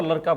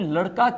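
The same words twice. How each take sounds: First: लड़का pronounced "laraka". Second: Said in the usual way. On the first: Retold or imitated. Teacher restating the exam question, लड़का said with r. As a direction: replace ड़ in लड़का with r. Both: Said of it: "ड के स्थान पर र".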